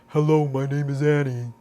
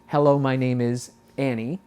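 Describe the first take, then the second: First: It is said in a dopey, low-larynx voice. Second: It is said in a relaxed, neutral voice.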